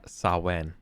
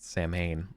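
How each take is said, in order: First: The word gets an Irish-style pronunciation. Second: The word gets an American-style pronunciation. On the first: The speaker calls it right. "is pronounced" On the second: The speaker calls it wrong. "not Samhain, like a filthy American"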